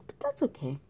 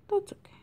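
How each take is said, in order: First: Said in the usual way. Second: Whispered. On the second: Real, not acted. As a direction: breathe it out as a whisper to yourself. Repeats phrase, then whispers it.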